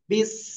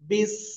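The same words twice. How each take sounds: The two takes are said the same way.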